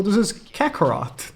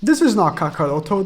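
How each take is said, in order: First: "Kakarot" clipped, English style, no final -o; mock the dub with a flat "Kakarot"; English dub name. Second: "Kakaroto" said in full with the final -to, the Japanese way; Japanese name. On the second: Retold or imitated. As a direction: stress the proper "Kakaroto", all four syllables.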